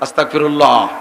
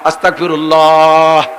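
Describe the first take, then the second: First: The word is said short. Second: The word is drawn out the most. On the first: "প্রথমবার একটু খাটো" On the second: "তৃতীয়বার আর একটু বড়"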